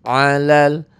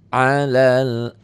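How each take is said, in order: Both takes have the same delivery.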